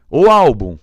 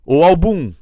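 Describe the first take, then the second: First: Álbum called out loud with a high ÁL; calling, stress on first syllable. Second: Álbum called out as al-BUM, high and loud; calling, stress on final syllable. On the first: Teacher calls the word in the playground, stress on ÁL. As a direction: shout it with the peak on ÁL of álbum. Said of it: "completamente diferente a entonação". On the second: Teacher calls the word in the playground, stress on BUM. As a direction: shout it with the peak on -bum of álbum. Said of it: "Chama no parquinho esse". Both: Shown as a demonstration.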